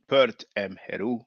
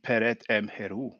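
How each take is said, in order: First: The first word is said with one syllable. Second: The first word is said with two syllables.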